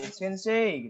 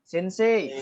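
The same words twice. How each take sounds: First: Sensei with a long, smooth "e"; teaching demo of the right form; correct pronunciation. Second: Sensei with "ei" split apart; teaching demo of the wrong form; wrong pronunciation. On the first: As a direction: glide "sensei" into one long "e". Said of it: "yang betul adalah sensei". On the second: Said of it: "Jadi jangan sensei". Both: Shown as a demonstration.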